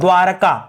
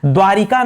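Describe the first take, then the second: First: No 'i' vowel follows 'dwar'. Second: An 'i' vowel follows 'dwar'. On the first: The speaker calls it right. "शुद्ध क्या है दोस्तों? द्वारका" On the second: The speaker calls it wrong. "द्वारिका नहीं होता"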